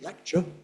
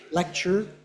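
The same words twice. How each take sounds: First: It is said in a non-North American accent. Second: It is said in a North American accent.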